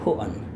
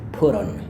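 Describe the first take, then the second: First: The t is dropped, in a British accent. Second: The t sounds like a soft d. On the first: "dia tadi juga nggak lafalkan T-nya" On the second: "Kalau Amerika, mereka akan bunyikan itu kayak bunyi D yang halus"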